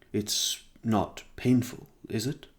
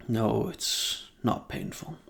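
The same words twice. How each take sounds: First: Slow, hesitant, timid question rising at the end. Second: Slow, deliberate answer, falling at the end; measured reassurance. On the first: Boy timidly asking the vampire about his tragedy, hesitant. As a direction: ask cautiously, feeling your way. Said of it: "he asked timidly". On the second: Vampire answering the timid boy, slow and measured. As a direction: pause after the no, then settle it calmly. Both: A narrator's reading.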